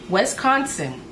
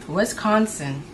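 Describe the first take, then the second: Both takes have the same delivery.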